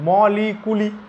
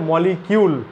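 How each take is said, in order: First: The word ends with a 'kuli' sound. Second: The word ends with a 'kyool' sound. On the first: It follows the spelling. "দেখ কি হওয়া উচিত মলিকুলি" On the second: It is how English speakers actually say it. "কিন্তু ওরা কি বলে মলিকিউল"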